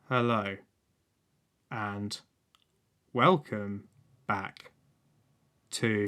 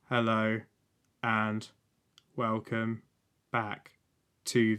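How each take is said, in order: First: The word welcome has lively, varied pitch. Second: The word welcome has flat, even pitch. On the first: The speaker calls it wrong. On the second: The speaker calls it right.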